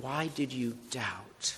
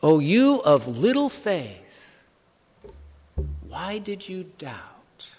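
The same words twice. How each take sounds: First: Soft repeated question. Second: Gentle slow rebuke. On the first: Shown as a demonstration. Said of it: "let's focus on Jesus' question". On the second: Acted. Jesus rebuking Peter.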